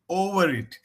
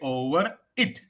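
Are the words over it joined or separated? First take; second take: joined; separated. First: The r links smoothly into it. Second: The two words are said apart. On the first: The speaker calls it right. "so it should it should like you know combine" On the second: The speaker calls it wrong. "Don't say"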